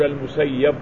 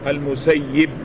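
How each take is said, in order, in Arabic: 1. الياء المشددة تتبعها حركة 'a'. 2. الياء المشددة تتبعها حركة 'i'. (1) "لا نقول المسيب" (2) "بكسر الإيه، تشديد الياء مع مع كسرها"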